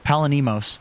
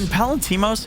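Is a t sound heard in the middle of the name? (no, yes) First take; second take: no; yes. First: The name has no t sound before the m. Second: The name has a t sound before the m. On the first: The speaker calls it wrong. "you always say it wrong" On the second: The speaker calls it right. "you get his name right"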